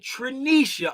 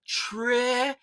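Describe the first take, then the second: First: The name ends with a 'sha' sound. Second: The name ends with a 'ta' sound. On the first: The speaker calls it wrong. "I just been saying Trinisha all this time" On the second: The speaker calls it right. "the correct pronunciation is"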